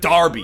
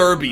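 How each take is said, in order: First: The first syllable sounds like 'dar'. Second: The first syllable sounds like 'dur'. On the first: The speaker calls it right. "it's pronounced" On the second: The speaker calls it wrong. "It's not pronounced"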